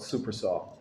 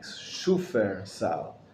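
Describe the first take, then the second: First: The name begins with 'super', with an s sound. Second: The name begins with 'shoofer', with an sh sound. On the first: The speaker calls it wrong. "most people call it super sal, but it's not super" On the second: The speaker calls it right. "is the proper pronunciation of it"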